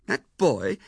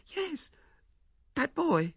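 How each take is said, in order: First: Put-on louder, falling disbelief at the boy; incredulous. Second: A small high admission; wife confirming. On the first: Husband hearing the sender's name, loud incredulous echo. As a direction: scoff at it, stunned. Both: A narrator's reading.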